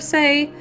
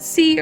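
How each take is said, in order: First: The name ends in an 'ay' vowel. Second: The name ends in an 'ee' vowel. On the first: "Let's just say Say" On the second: "I really do need to pick a pronunciation"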